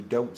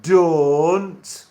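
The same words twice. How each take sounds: First: Said in the usual way. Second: Loud, long-vowelled Sheffield "don't"; exaggerated Sheffield "don't", pitched up; Sheffield accent. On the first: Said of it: "you don't say don't". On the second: Shown as a demonstration. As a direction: belt out "don't" in broad Sheffield. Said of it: "You would say it as".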